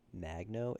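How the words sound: It is pronounced with an American English accent. The speaker is an American. "if you're American"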